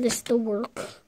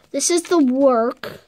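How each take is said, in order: First: Softer, quicker throwaway "This is the work"; muttered repeat; quick aside. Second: Slow, each word spaced out, "the" drawn long; unhurried showing-off read; slow deliberate. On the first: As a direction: drop it casually, much quieter. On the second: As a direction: present it slowly with weight on "the". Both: Shown as a demonstration.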